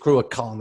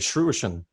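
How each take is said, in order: First: The 'ch' sounds are said hard and throaty. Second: The 'ch' sounds are said soft, like 'sh'. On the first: The speaker calls it right. "it's a proper C H, ... it's a hard C H" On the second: The speaker calls it wrong. "when we go to Russia, people say"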